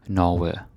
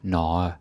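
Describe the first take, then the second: First: The g sound is clearly pronounced. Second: The g sound is left out of the word. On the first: The speaker calls it right. "you have to pronounce the G" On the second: The speaker calls it wrong. "or um, Norge"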